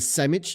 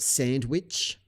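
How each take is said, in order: First: It is said with an English accent. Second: It is said with a French accent. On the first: The speaker calls it right. "You got to say the sandwich" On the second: The speaker calls it wrong. "not sandwich, because we're not fucking living in France"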